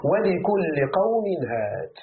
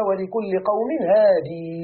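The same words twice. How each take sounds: First: Slow recited هاد, no final ya, ends clipped on d; slow Quranic reading of هاد without the ya; hād without final ya. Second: Slow recited هادي, long final ī sounded; slow reading of هادي with the ya kept; hādī with final ya. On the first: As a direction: recite slowly, closing هاد on the d. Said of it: "ولكل قوم هاد فيه ثلاثة أقوال". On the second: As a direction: recite slowly, stretching the ya of هادي. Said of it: "قرئ". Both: Shown as a demonstration.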